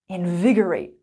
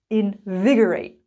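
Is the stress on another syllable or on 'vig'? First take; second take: vig; vig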